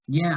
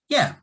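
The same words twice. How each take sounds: First: The voice rises, falls, then rises again. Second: The voice falls at the end. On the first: The speaker only partly agrees. "a rise, fall, rise intonation shows some disagreement" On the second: The speaker fully agrees. "we use a falling intonation when we agree with something"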